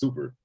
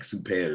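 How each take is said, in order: First: The word is said with a plain English accent. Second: The word is said with a Spanish accent.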